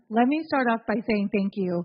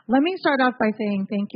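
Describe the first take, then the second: First: It is said quietly. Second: It is said loudly.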